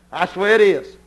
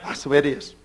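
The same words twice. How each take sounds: First: Said in the usual way. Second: That's the way it is, dropped low and soft; quiet echo. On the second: Real, not acted. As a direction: murmur That's the way it is to yourself.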